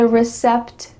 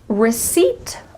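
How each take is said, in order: First: It is said as 'recept'. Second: It is said as 'receipt'. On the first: The speaker calls it wrong. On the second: The speaker calls it right.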